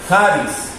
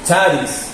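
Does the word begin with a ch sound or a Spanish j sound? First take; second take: Spanish j; ch. First: The first sound is a throaty Spanish j. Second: The first sound is a ch sound. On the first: "si la pronunciamos como una J diría Haris" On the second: "sino que la pronunciamos como C H, entonces dice Charis"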